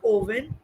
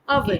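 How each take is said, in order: First: The first vowel is not a short 'uh' sound. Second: The first vowel is a short 'uh' sound. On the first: The speaker calls it wrong. "not oven" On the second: The speaker calls it right. "Imagine in Hindi you're writing a, v, no"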